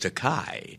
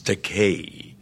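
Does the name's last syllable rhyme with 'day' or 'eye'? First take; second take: eye; day. First: The last syllable rhymes with 'eye'. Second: The last syllable rhymes with 'day'. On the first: The speaker calls it wrong. "a common mispronunciation of my surname because of the EI. They want to give it that Germanic Einstein, you know, pronunciation" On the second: The speaker calls it right. "the vowels in Japanese are pronounced like the Mediterranean languages"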